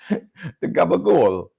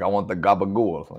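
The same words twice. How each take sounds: First: High, slow, drawn-out fake Italian gabagool; Michael Scott faking a mafia accent, slow and high; mock Italian mafia. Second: Said in the usual way. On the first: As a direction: stretch out gabagool like a wannabe mobster. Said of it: "Michael Scott is trying to pretend like he's in the Italian mafia". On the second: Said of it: "He's like".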